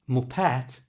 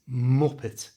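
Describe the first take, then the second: First: The stress is not on the first syllable. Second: The stress is on the first syllable. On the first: The speaker calls it wrong. "So it's not muppet" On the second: The speaker calls it right. "all the emphasis is at the front of the word"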